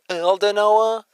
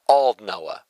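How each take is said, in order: First: The first syllable does not sound like bald. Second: The first syllable sounds like bald without b. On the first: The speaker calls it wrong. "Because I was like" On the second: The speaker calls it right. "think of it as bald and just chop the B part off"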